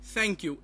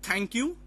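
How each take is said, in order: First: It begins with the tongue tip on the teeth. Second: It begins with a hard, non-dental t sound. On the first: The speaker calls it right. "but it will be thank you" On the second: The speaker calls it wrong. "it will not pr- pronounce it as thank you"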